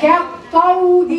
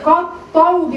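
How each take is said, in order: First: Slow "كالطود" with a thin, fronted "ke"; drawn-out recitation of "كالطود", light first vowel; correct light kaf. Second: "كالطود" with a thick, dark "ka"; "كالطود" opening on a heavy kaf; wrong heavy kaf. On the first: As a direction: stretch "كالطود", keeping the kaf light before the ط. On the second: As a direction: back the first vowel of "كالطود" to match the ط. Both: Shown as a demonstration. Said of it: "ولا كا؟".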